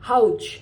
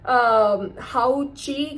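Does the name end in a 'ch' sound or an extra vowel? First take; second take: ch sound; extra vowel. First: The name ends on the ch sound. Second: The name ends with an extra vowel syllable. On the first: This is the proper pronunciation. The speaker calls it right. "उसकी pronunciation है हाउच" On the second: This is how it used to be said. The speaker calls it wrong. "मैं बोलती थी"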